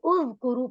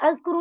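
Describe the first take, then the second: First: The word begins with a 'u' vowel. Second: The word begins with an 'a' vowel. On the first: The speaker calls it right. "बल्कि उज़कुरू पढ़ा जाएगा" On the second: The speaker calls it wrong. "अज़कुरू नहीं"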